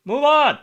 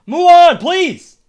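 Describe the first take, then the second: First: Said in the usual way. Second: Higher, louder, fed-up plea; exasperated shout. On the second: Real, not acted. Streamer yelling at the slow game text, fed-up shout. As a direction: yell at the slow text to hurry up.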